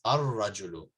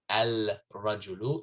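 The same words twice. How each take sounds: First: Ar-rajulu with a doubled r, no l; right ar-rajulu. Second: Al-rajulu with the l sounded; wrong al-rajulu. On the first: Teacher gives students the correct ar-rajulu. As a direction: say ar-rajulu with the lam silent. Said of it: "it's ar-rajulu". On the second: Teacher shows students the wrong al-rajulu. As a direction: say al-rajulu with a clear lam. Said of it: "not al-rajulu". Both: Shown as a demonstration.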